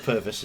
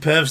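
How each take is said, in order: First: The name is said as two syllables. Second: The name is said as one short syllable. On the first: The speaker calls it right. "Or Purvis as it should be" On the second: The speaker calls it wrong. "we'll pronounce it Pervs then"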